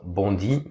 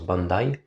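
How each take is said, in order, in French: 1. Le nom se prononce à la française. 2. Le nom se prononce à la manière locale. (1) "que les purs français appellent" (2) "mais ça se prononce"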